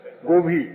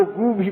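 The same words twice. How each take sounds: First: Said in the usual way. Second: گو said with a long "oo", then بھی; گو بھی with "oo" in place of "o"; changed vowel. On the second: Shown as a demonstration. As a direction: say گو بھی as "goo bhi". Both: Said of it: "یہیں سے معروف و مجہول کی قدر".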